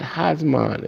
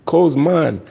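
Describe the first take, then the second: First: The word begins with an audible h sound. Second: The word is said without the h sound. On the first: The speaker calls it wrong. "it's not Hazman" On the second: The speaker calls it right. "Drop the H"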